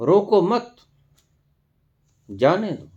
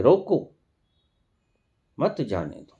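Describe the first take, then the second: First: रोको मत raised together, long pause, then जाने दो; pause after मत. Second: रोको, long pause, then मत जाने दो together; pause after रोको. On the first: Preacher showing the opposite meaning, pausing after रोको मत. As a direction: lift रोको मत as one phrase, stop, then जाने दो. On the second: Preacher showing how a pause changes meaning, pausing after रोको. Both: Shown as a demonstration. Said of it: "सिर्फ ठहराव से".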